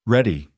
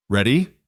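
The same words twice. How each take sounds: First: Ready. falling as a statement; firm falling answer. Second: Ready? rising as a question; questioning rise. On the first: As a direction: drop Ready. down to close it. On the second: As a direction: lift the end of Ready? upward. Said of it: "he asked". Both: A narrator's reading.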